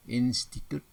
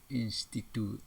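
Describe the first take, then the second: First: High, loud "Institut" ending on T; "Institut" with no final vowel; standard pronunciation. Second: "Institute" with added final "te"; "Institute" said in-sti-tu-te; nonstandard pronunciation. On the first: Teacher models standard word, closed "Institut". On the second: Teacher shows wrong form, "Institute" with sounded E. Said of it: "tidak baku". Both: Shown as a demonstration.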